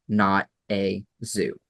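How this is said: It is said slowly as separate words. The park is not merely a zoo. "you say it slowly"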